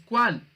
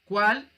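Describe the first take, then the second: First: "cuál" said high and loud, falling as a statement; name the word "cuál" firmly with a falling tune; cited word. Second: "Cuál" as a loud question, rising at the end; interrogative cuál. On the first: Teacher presenting the example word to students, "cuál" with a firm fall. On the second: Teacher showing the interrogative pronoun, "Cuál" asked with a rise. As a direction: ask "Cuál" with an upward turn. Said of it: "de un pronombre interrogativo". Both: Shown as a demonstration.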